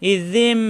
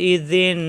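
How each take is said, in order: First: The word ends with an m sound. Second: The word ends with an n sound. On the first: The speaker calls it right. "কিন্তু আমরা পড়ব ইজিম" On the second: The speaker calls it wrong. "এখানে দেওয়া আছে ইজিন"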